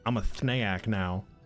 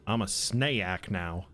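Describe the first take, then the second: First: The s sound is lisped like th. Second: The s sound is a clear hiss.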